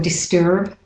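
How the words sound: It is said with an American accent.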